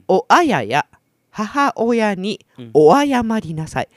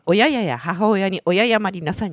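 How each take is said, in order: First: The opening is said clearly as 'o-a-ya-ya'. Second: The opening slurs into 'o-ya-ya' without the 'a'. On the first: The speaker calls it right. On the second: The speaker calls it wrong.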